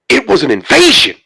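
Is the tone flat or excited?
excited. It is said in an excited tone.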